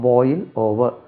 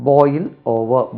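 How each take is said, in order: The two takes are said the same way.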